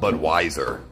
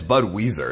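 First: The second part sounds like 'wiser'. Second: The second part sounds like 'weezer'. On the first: The speaker calls it wrong. "it's not Budweiser" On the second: The speaker calls it right. "Because it's spelled Weezer"

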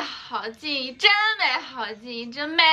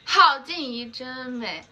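First: The stress is on 真. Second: The stress is on 好.

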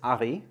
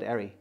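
First: The name is pronounced the German way. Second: The name is pronounced the American way. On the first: This is how it is said in Germany. "So in Germany, it's ARRI" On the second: This is how it is said in America. "And in America, I would call it ARRI"

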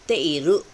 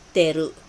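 First: The i sound after te is pronounced. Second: The i sound is dropped, giving teru. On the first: This is the written form. "magiging teiru kung isusulat mo" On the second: This is how it is heard in casual speech. "maririnig niyo po, wala rin po siyang E"

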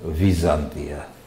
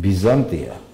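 First: The word begins with a v sound. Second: The word begins with a b sound. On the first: This is how Russians say it. "а русские говорят" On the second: This is how Georgians say it. "мы говорим"

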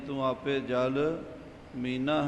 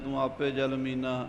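First: The phrase is read slowly, words kept apart. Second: The phrase is read quickly, words run together. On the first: The speaker calls it right. "ਇਸ ਤਰ੍ਹਾਂ ਉਚਾਰਨ ਕਰਨਾ ਹੈ" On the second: The speaker calls it wrong. "ਆਮ ਕਾਹਲੀ ਨਾਲ ਆਪਾਂ ਪੜ੍ਹ ਜਾਂਦੇ ਹਾਂ ... ਇੱਦਾਂ ਨਹੀਂ"

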